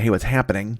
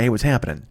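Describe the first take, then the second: First: The final g sound of happening is pronounced. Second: The final g sound of happening is dropped. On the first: The speaker calls it wrong. "I don't want to say" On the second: The speaker calls it right. "I say ... I can't throw a G in there"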